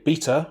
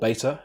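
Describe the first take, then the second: First: It is said with a British pronunciation. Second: It is said with an American pronunciation.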